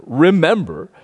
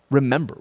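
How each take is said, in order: First: Remember said louder with a falling close; stress on Remember. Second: Said in the usual way. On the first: Shown as a demonstration. Pastor urging the congregation to remember, stressed. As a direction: lean into Remember, then let it fall.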